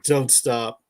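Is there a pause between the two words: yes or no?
no. The words run together without a pause.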